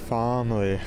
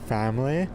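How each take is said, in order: First: It is said with a British Columbia accent. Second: It is said with a Toronto accent. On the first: "In B C, they say family" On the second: "In Toronto, we'd say family"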